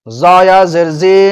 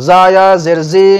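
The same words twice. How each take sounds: No difference in how they are said.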